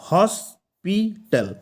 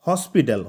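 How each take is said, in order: First: হসপিটাল drawn out as হস – পি – টাল; very slow হসপিটাল with pauses between its three syllables. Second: Said in the usual way. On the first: Shown as a demonstration. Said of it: "আমাদের এটাতে কটা syllable আছে". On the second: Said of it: "কটা syllable আছে".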